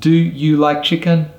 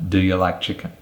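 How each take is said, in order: First: The small grammar words are said fully and clearly. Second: The small grammar words are said weakly and reduced. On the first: The speaker calls it wrong. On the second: The speaker calls it right.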